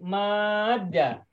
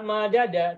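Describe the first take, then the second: First: The d sound is doubled with no vowel. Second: The two d sounds are separated by a vowel. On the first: This is how the word is actually read. The speaker calls it right. "bacanya tetap harus pakai sabdu" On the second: This is the underlying pattern form. The speaker calls it wrong. "semula madada"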